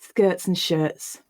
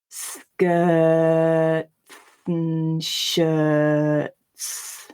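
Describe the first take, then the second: First: It is read at normal speed with reduced ts sounds. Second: It is read slowly with clear ts clusters. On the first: "read it at normal speed" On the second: "even when I read it really slowly"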